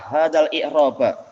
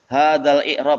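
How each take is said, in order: First: The last word ends with a final 'a' vowel. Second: The last word ends without a final vowel. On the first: The speaker calls it right. "harusnya i'rab di fathah" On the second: The speaker calls it wrong. "ini ana salah harokatnya ya"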